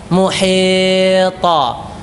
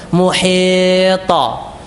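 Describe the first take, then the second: The two takes are said the same way.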